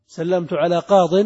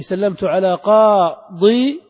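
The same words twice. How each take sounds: First: "قاض" loud, ending in short -din; shortened kasra tanween. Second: "قاضي" loud, slow, drawn into qaa-dii-yin; heavy full ending. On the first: Teacher giving the final genitive form, qaa-din. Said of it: "وكذلك في الجر". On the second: Teacher showing the heavy original form, qaa-dii-yin stretched. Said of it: "تخلص من الثقل". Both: Shown as a demonstration.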